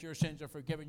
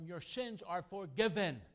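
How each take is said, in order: First: Said in the usual way. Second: Slow, solemn and a little higher; Jesus pronouncing forgiveness. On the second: Acted. Preacher voicing Jesus forgiving the paralytic, slow and solemn. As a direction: draw out each word like a blessing. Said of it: "he said to them".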